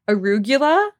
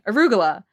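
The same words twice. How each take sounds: First: The 'gu' syllable is pronounced clearly and fully. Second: The 'gu' syllable is glossed over and reduced. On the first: "Nick always from the beginning has always pronounced it arugula. Like pronouncing the G-U" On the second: "instead of just like glossing over it and saying arugula"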